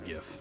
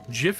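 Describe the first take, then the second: First: The word starts with a hard G sound. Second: The word starts with a soft J sound. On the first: The speaker calls it right. "it's absolutely GIF" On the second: The speaker calls it wrong. "GIF is peanut butter"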